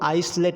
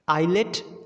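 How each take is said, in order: First: An s sound is heard after the first vowel. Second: No s sound is heard after the first vowel. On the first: The speaker calls it wrong. "इसको आइसलेट नहीं पढ़ा जाएगा" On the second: The speaker calls it right. "The exact pronunciation"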